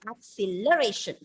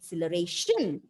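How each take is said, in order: First: The stress is on the third syllable. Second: The stress is on the fifth syllable. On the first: "if I put the stress on the third syllable" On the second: "if you stress on the last syllable"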